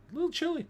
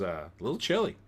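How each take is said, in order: First: High, sing-song "chilly" repeat; playful high repeat. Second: Said in the usual way. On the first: Pretend. Host jokes about chilly weather in a high playful voice. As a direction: lilt it up for a laugh.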